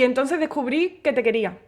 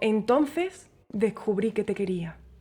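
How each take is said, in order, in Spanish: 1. Se dice de forma plana, sin cuidado en el final. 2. Se dice con calidez, con un final bien cuidado. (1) "Eso es como, ah, pues vale" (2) "Eso te ha llegado al corazón"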